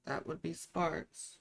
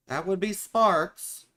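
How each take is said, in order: First: Slow, much softer teasing echo; soft flirty repeat. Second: Playful flirt. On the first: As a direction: murmur it back like a private tease. Repeats the flirty line softly. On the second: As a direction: say it like a cheeky promise. First flirty take. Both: Pretend.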